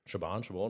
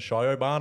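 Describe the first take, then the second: First: The name is said as 'shi-vawn', two syllables. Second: The name is said as 'shy-o-barn', three syllables. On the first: The speaker calls it right. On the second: The speaker calls it wrong.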